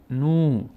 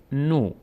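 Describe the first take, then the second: First: نو as long "nuu"; long vowel. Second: نو as short "no"; short vowel. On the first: Teacher strengthens nun with vav, long "nuu". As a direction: stretch نو with an oo. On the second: Teacher says nun on its own, short "no". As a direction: say نو with a brief o. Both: Shown as a demonstration.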